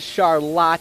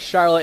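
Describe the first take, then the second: First: The name is said the Mid-Michigan local way. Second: The name is said the usual, standard way. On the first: The speaker calls it wrong. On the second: The speaker calls it right.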